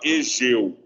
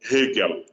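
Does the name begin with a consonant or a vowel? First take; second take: vowel; consonant. First: The name starts with a vowel, no initial h. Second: The name starts with a rough, r-like h sound. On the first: The speaker calls it wrong. "Nunca fala Egeu" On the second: The speaker calls it right. "Você pronuncia o H, ele tem um som meio disfarçado de R"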